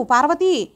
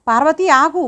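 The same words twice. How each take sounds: First: Second call, name falling at the end; calling again. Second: Calling out, name lifted at the end; calling after her. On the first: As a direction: call once more as she keeps walking. (మళ్ళీ పిలుపు, పేరు కిందికి దిగుతూ) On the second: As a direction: call to stop her as she walks away. (పిలుస్తూ, పేరు పైకి ఎత్తి) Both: A narrator's reading. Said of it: "Sharada Devi పిలుస్తూ ఉంది".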